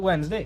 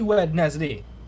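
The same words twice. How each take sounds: First: The first d is dropped, like Wensday. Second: Every letter is sounded, including the first d. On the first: This is how people normally say it. "Or we just say Wednesday" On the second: This is how the spelling reads. "That is literally Wednesday"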